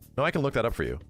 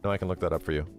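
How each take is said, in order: First: It is said with lively, high energy. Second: It is said plainly with low energy.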